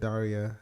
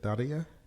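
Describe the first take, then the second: First: The R sounds plain, without Russian colouring. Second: The R sounds Russian, pronounced differently. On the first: This is how an outsider says the name. "And I said Daria" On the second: This is how a Russian speaker says the name. "She just pronounced the R differently, I think. More Russian sounding"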